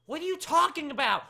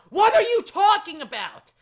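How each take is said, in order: First: Raised, high-pitched bafflement; baffled exasperation. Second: Very high, very loud baffled yell; exasperated shout. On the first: Host baffled by a viewer's question, exasperated. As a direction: demand it, confused and fed up. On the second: Host baffled by a viewer's question, shouting. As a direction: repeat it as a full yell. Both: Real, not acted.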